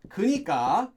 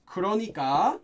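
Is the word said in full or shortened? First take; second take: shortened; full. First: The middle syllable is dropped from the word. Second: All three syllables of the word are said.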